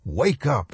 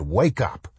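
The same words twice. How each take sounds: First: Whiny plea rising higher, falling at end; whining schoolboy. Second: Put-on anxious, whiny young boy pleading; whining schoolboy. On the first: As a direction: whine it harder, a panicked schoolboy. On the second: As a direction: whine it like a frightened schoolboy. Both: A narrator's reading. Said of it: "in the whining voice of an anxious schoolboy".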